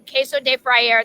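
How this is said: It is said with an American English accent. The speaker calls it wrong. "That's my gringo way of saying it"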